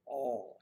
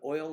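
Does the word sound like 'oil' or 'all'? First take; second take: all; oil. First: The vowel is flat, sounding like all. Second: The vowel glides, sounding like oil. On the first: "they would put all in your car" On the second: "I would put oil in my car"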